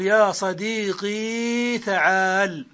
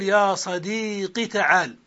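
First: "يا صديقي" with the final ī held long; slow demo, draw out the ee ending of "صديقي"; "صديقي" ending in a long, vowelless ya. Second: "صديقي" with a short final i; slow demo, clip only the last vowel of "صديقي"; kasra without ya. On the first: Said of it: "بإثبات الياء ساكنة". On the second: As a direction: say "صديقي" as sadīqi, no long ee at the end. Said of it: "بقاف مكسورة دون ياء". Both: Shown as a demonstration.

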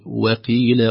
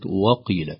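First: وقيل with a thin unemphatic waw; light waw. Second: وقيل with a thick emphatic waw; heavy waw. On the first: (ترقيق الواو في وقيل) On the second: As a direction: darken the و in وقيل. (تفخيم الواو في وقيل) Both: Shown as a demonstration. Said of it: "وليست".

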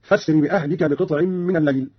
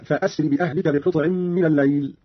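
First: فاسر said "fasri" with no glottal stop; Qalun's فاسر, hamza elided; joined hamza. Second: Said in the usual way. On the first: Shown as a demonstration. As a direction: glide from fa straight into s in فاسر. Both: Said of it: "قرأ قالون بوصل الهمزة هكذا".

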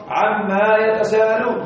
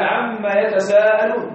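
First: عما said with a long alif, slowly, as the mistake; wrong reading. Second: عما with a doubled mim, read slowly; correct reading. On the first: Teacher shows students the wrong reading, slow and deliberate. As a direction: model the error, عما drawn out with alif. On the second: Teacher recites the verse correctly for students, slowly. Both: Shown as a demonstration. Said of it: "لا تقرأ".

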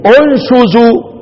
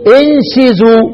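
First: "انشزوا" with damma, unshuzu, drawn out slowly; damma reading. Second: "انشزوا" with kasr, inshizu, i vowels; kasr reading. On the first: Teacher demonstrating the damma reading of "انشزوا" as unshuzu. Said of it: "ومن قرأ بالضم تبدأ له إيه؟". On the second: Teacher demonstrating the kasr reading of "انشزوا" as inshizu. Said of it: "من قرأ بالكسر تبدأ له إيه؟". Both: Shown as a demonstration.

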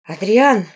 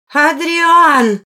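First: Louder, reproachful address by name; accusing. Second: High, loud call across rooms; shouted summons. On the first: A woman confronts the lord at supper, accusing. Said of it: "с обвинительными нотками в голосе". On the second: An appalled woman calls the lord from the dining room, shouting. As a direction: yell the name to fetch him. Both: A narrator's reading.

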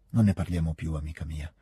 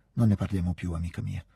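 First: Gentle, tender, deep. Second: Said in the usual way. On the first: A narrator's reading. Pierre gently consoling Natascia, tender and deep. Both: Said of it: "quella sua voce così gentile, tenera, profonda".

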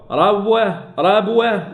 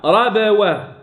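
First: ربوة with b sliding straight into w; no qalqala. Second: Slow ربوة, b released with a bounce; qalqala then waw. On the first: Teacher imitating the common error, unbounced baa. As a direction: merge b into waw in ربوة, as a mistake. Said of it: "لا". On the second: Teacher correcting the error, slow bounced baa. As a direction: echo the b in ربوة before the waw. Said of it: "رب، قلقلة ثم الواو". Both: Shown as a demonstration.

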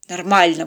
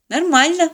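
First: Grunted answer. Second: High "Нормально" with a rising end; innocent lie. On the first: Father avoiding his daughter's eyes, mildly grumpy. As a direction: grunt "Нормально" and let it drop. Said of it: "буркнул папочка". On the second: Daughter lies back to the captain, innocently. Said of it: "в свою очередь солгала Полина". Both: A narrator's reading.

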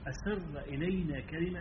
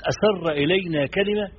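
First: Slow and soft, almost in the ear; hushed, confiding. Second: Louder, slow, with كلمة punched hard; stress on كلمة. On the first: Preacher quoting the companion about the private word, hushed. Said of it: "إشارة إلى أن دي رخصة". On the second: Preacher driving home the key word to listeners, emphatic. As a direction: hit the word كلمة firmly and slowly. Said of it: "فكلمة". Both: Shown as a demonstration.

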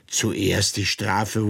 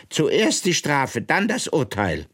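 First: Incredulous echo. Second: Queen's command. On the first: Alice repeats in disbelief. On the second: Queen dictates court order. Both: Acted.

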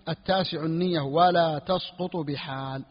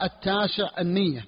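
First: Slow dictation. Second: Said in the usual way. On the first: Shown as a demonstration. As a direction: read it slowly, word by word, for students to write. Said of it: "teacher dictates the matn slowly". (إملاء بطيء كلمة كلمة) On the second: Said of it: "teacher reads the matn line".

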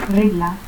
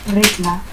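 First: Said in the usual way. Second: Regla as "recla". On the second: Shown as a demonstration. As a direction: harden the G of Regla to K. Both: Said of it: "confusión de la G y que".

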